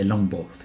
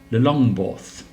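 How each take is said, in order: First: It starts directly with long, no extra syllable. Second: It starts with an extra lu syllable. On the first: The speaker calls it right. "I think you just say Longborth" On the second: The speaker calls it wrong. "you don't say Lula"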